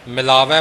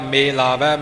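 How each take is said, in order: First: The first vowel is a short 'i' sound. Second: The first vowel is an 'e' sound. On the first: The speaker calls it wrong. "ਮਿਲਾਵੈ ਪਾਠ ਨਹੀਂ ਕਰਨਾ" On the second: The speaker calls it right. "ਮੰਮੇ ਨੂੰ ਲਾਮ ਹੈ, ਇਸ ਵਾਸਤੇ ਸੋਚ ਸਮਝ ਕੇ ਸਹੀ ਪਾਠ ਕਰਨਾ"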